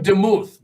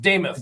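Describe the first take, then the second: First: The name does not rhyme with Namath. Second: The name rhymes with Namath. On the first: This is how the spelling suggests reading it. The speaker calls it wrong. "Looks like Demuth" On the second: This is how the name is actually said. The speaker calls it right. "but it's Damuth, like Namath"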